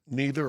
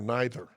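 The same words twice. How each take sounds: First: It is said with an American pronunciation. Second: It is said with a British pronunciation. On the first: "depending on whether you're in America or London" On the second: "depending on whether you're in America or London"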